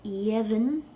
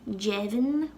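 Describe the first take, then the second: First: The word begins with a Y sound. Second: The word begins with a J sound. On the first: "it'll sound like a Y" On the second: "It sounds like a J"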